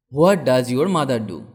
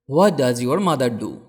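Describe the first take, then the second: No difference in how they are said.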